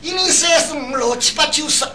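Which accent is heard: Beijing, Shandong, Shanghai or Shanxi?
Shanghai. The numbers are counted in a Shanghai accent.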